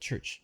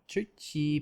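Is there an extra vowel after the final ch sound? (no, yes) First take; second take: no; yes. First: The word stops cleanly on the ch sound. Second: An extra vowel is added after the final ch. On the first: The speaker calls it right. "but church" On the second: The speaker calls it wrong. "not churchy"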